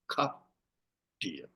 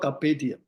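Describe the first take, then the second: First: Carpe is said as one syllable, without final e. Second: Carpe is said as two syllables, ending in pe. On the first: The speaker calls it wrong. "A I pronounced carpe diem" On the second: The speaker calls it right. "not carpe diem"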